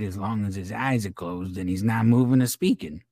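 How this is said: It is read in an imitated accent and voice.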